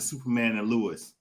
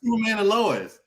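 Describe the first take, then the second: First: The name is pronounced like Lewis. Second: The name is pronounced like Lois. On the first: The speaker calls it wrong. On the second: The speaker calls it right.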